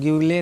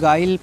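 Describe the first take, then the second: First: A yoo sound follows the g. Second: The u is silent after the g. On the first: The speaker calls it wrong. "नहीं" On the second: The speaker calls it right. "यू का pronounce मत करिए"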